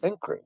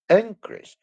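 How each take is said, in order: First: Said in the usual way. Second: Increase with the first syllable hit high and loud; Increase stressed on IN, loud and high. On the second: Shown as a demonstration. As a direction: punch the start of Increase, noun form. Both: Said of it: "I stress the beginning of the word".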